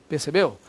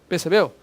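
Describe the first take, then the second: Both takes have the same delivery.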